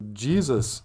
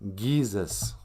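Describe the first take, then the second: First: The word begins with a soft J sound. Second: The word begins with a hard G sound. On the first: The speaker calls it wrong. "Some people think, oh yeah" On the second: The speaker calls it right. "G's are pronounced G"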